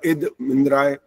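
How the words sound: There is a pause after the first word. The speaker calls it wrong. "ईद में आप क्यों रुके वहां? तो ईद तो ऐसा आपने बोला"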